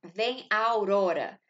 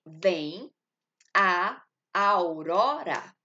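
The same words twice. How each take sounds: First: Said in the usual way. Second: "Vem a aurora" with the two a sounds merged into one, drawn out slowly; slow elision demo. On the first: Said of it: "Aqui eu tenho". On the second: Shown as a demonstration. Teacher showing students the elision in "a aurora", slow and merged. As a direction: glide "a aurora" together as one syllable, slowly. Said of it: "Tá vendo que eu tô juntando a com o outro a do aurora?".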